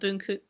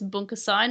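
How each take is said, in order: First: The second syllable has a 'u' vowel. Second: The second syllable has an 'a' vowel. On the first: The speaker calls it wrong. "not Bunku" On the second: The speaker calls it right. "I think it's Bunkasai"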